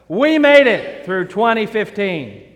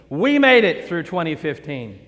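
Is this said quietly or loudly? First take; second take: loudly; quietly. First: It is said at a louder volume. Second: It is said at a normal, quieter volume. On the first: "say that louder" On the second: "I want you to say that with me"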